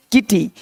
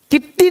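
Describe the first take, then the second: First: किटी as "ki-tee", one t; undoubled किटी; single consonant. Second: किट्टी as "kit-ti", t held; geminated किट्टी; doubled consonant. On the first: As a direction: say किटी lightly through a single t. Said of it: "किट्टी नहीं". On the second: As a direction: sound both t's in किट्टी. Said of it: "नहीं". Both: Shown as a demonstration.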